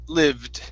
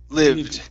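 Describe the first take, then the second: The two takes are said the same way.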